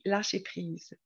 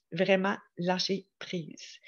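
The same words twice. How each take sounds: First: Said in the usual way. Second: "Vraiment, lâcher prise" slow, with a pause between words; emphatic repeat. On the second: Real, not acted. Host driving home the day's topic, slow emphasis on "lâcher prise". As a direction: spell out "lâcher prise" slowly, word by word.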